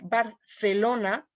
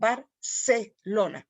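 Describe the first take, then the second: First: The c sounds like English th. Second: The c sounds like s.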